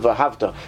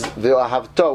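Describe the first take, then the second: First: The stress is on the 'hav' syllable. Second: The stress is on the last syllable. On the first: The speaker calls it wrong. "as opposed to the hey, which most people read the word ve'ahavto" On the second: The speaker calls it right. "the correct pronunciation is ve'ahavto, which means you're accenting, you're lengthening the last syllable of the word"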